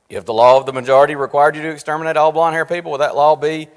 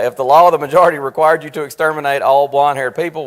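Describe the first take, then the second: First: "majority" rushed past without contrast; emphasis missed. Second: "law of the majority" said loud and deliberately; corrected emphasis. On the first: Real, not acted. Teacher misreading a question to his class, emphasis missed on "majority". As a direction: run quickly through "majority" with no special weight. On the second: Shown as a demonstration. Teacher rereading the question after his slip, "law of the majority" emphasized. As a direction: lean firmly on "law of the majority". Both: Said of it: "I just didn't have the right emphasis there".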